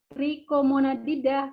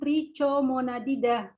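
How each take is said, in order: First: The 'cho' is said with a k sound. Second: The 'cho' is said without a k sound. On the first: The speaker calls it right. "itu dibaca trichomonadida" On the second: The speaker calls it wrong. "bukan trichomonadida"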